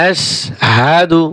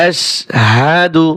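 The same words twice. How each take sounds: No difference in how they are said.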